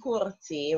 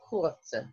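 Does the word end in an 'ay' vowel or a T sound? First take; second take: ay vowel; T sound. First: The word ends with an added 'ay' vowel. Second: The word ends on a plain T sound. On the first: The speaker calls it wrong. "we're not saying courté" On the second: The speaker calls it right. "We're just pronouncing the T"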